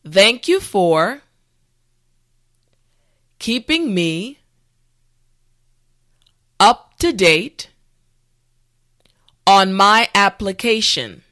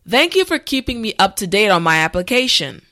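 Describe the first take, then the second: First: The sentence is said at a slow pace. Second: The sentence is said at a normal pace. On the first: "this time repeat after me" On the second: "the last time at a regular pace"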